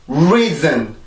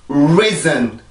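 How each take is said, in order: No difference in how they are said.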